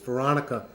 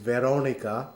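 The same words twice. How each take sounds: First: The name is said with an English pronunciation. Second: The name is said with an Italian pronunciation. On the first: "It's Veronica in in the United, you know, in, in English" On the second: "I'm going to try to pronounce it the way they do in Italy"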